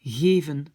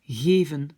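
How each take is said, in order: First: Soft g, voiced v, flat pure e vowel. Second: Soft g, voiced v, flat pure e vowel.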